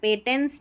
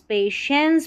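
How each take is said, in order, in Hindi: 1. बीच का व्यंजन 't' ध्वनि है। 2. बीच का व्यंजन 'sh' ध्वनि है। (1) "पेटेंस नहीं पढ़ेंगे" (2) "पेशेंस पढ़ना है"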